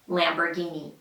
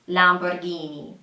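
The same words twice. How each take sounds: First: It is said with an American accent. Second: It is said with an Italian accent. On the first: "in the U S, they say" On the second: "in Italian, it is pronounced something like"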